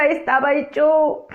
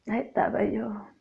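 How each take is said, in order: First: Said in the usual way. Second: "Ahí estaba yo" said again much softer, almost to herself; 1 a soft, hushed repeat. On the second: Shown as a demonstration. Repeating her testimony to the brethren, now hushed and soft. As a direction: let "Ahí estaba yo" fall away to a near hush.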